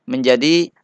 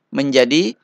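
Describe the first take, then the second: No difference in how they are said.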